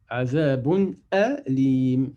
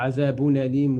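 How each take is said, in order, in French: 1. Le son n est prononcé clairement et séparément. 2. Le son n se fond dans le mot suivant. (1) "L'izhar, c'est de prononcer de façon très claire les deux lettres" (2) "On ne dit pas azabun alim"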